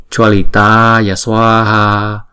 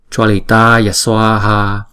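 Both takes have the same delivery.

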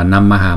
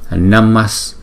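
First: The word ends with an added 'ha' syllable. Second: The word ends with an 's' sound. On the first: The speaker calls it wrong. "chúng ta không đọc là Namaha" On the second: The speaker calls it right. "chúng ta sẽ chuyển cái Visarga này thành chữ S"

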